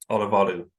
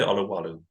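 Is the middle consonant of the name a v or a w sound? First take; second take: v; w. First: The middle consonant sounds like a v. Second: The middle consonant sounds like a w. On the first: This is probably the proper pronunciation. "the W is pronounced like a V, but it's so it probably is" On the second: This is acceptable and understood. "but you can say"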